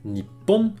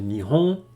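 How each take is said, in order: First: The middle consonant is a doubled p sound. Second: The middle consonant is a soft h sound. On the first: It conveys pride in something typically Japanese. "la prononciation un petit peu plus fière, qui a un peu plus de punch" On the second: It is the neutral everyday form. "qui est très neutre"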